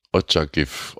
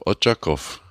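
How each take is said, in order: First: Otschakiw said with a short ch and an f at the end; Ukrainian name form. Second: Otschakow said ending in -ow with an open o; Russian name form. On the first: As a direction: say Otschakiw ending in -iw. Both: Shown as a demonstration. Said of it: "Die Stadt hat wohl zwei Namen".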